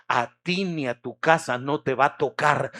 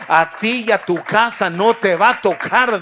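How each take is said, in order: First: Said in the usual way. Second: The promise again, much louder and higher; God's promise thundered out to the faithful king; preached shout. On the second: Acted. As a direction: proclaim it at full force.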